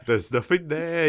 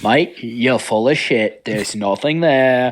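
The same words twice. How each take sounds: First: Higher, lighter Aussie imitation; mock Australian accent. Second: Very slow, drawn-out Aussie bloke; mock Australian accent. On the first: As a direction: copy the Aussie line, a bit higher. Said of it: "Australian remake". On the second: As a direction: lay on a lazy Australian drawl.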